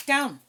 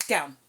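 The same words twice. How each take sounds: First: "Down" barked louder and higher; loud command. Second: Said in the usual way. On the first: Real, not acted. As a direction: raise the voice on "Down". Repeated command to dog.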